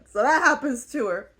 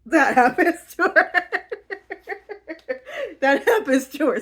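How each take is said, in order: First: Said in the usual way. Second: Giggling, barely getting it out; words breaking into real laughter; laughing through words. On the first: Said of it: "But y'all got the idea". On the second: Real, not acted. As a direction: laugh while you say it.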